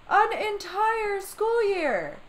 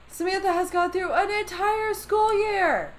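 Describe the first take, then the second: First: Each word dragged out slowly, pitched higher; An entire school year stretched out in disbelief; slow emphatic repeat. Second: Said in the usual way. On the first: Real, not acted.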